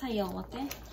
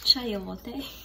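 First: It is pronounced the Filipino way. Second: It is pronounced the English way. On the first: "In Filipino, we call this chayote" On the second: "In English, chayote"

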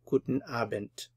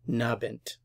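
First: Both words are pronounced fully, with no clipping. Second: The first part is dropped, leaving just 'nabend'.

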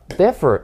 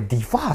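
First: The stress is on the first syllable. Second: The stress is on the second syllable. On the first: The speaker calls it right. "エフに個の場合って前にアクセントきます" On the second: The speaker calls it wrong. "differ って発音しちゃう人が多い"

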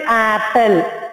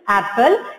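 First: The first vowel is dragged out long. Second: The first vowel is kept short. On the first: The speaker calls it wrong. "we will not say apple" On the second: The speaker calls it right. "It is apple"

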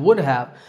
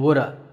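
First: Both words are said fully and separately. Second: The words blend into one reduced form.

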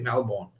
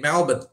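First: Melbourne is pronounced a non-Australian way. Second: Melbourne is pronounced the Australian way. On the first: The speaker calls it wrong. "They don't say Melbourne" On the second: The speaker calls it right. "Australians say Melbourne"

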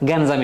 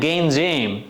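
First: The word is said in a plain Bengali way. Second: The word is said in a stylish English-like way.

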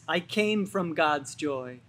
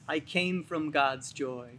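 The two takes are said the same way.

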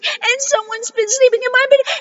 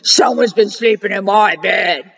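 First: A wee little high Baby Bear voice. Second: A great big deep Papa Bear voice.

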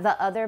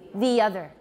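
First: A glottal stop separates the two words. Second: The two words are linked smoothly together. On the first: It sounds uneducated. The speaker calls it wrong. "not the other" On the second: It sounds standard and prestigious. The speaker calls it right. "but the other, the other. That to me is more standard and it's more prestigious"

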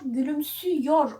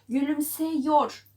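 First: The vowel before -yor is a ü sound. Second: The vowel before -yor is an e sound. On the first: The speaker calls it right. "Gülümsüyor oluyor. ... E, ü'ye dönüşerek yine daraldı" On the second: The speaker calls it wrong. "Gülümseyor olmuyor"

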